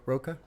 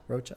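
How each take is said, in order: First: "Rocha" said with a k sound, ROH-kuh; hard k pronunciation. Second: "Rocha" with ch as in church, ROH-chuh; ch pronunciation. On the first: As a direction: pronounce the ch in "Rocha" like k. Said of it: "I don't think that's how they pronounce it". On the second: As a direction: say "Rocha" with a soft English ch. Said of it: "I always say Rocha". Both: Shown as a demonstration.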